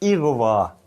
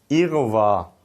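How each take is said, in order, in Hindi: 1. शब्द 'i' स्वर से शुरू होता है। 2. शब्द 'i' स्वर से शुरू होता है।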